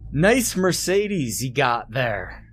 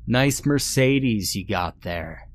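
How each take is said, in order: First: It is screamed very loudly. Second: It is said more loudly.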